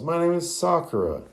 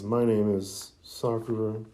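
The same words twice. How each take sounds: First: It is yelled angrily and loudly. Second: It is said timidly and quietly.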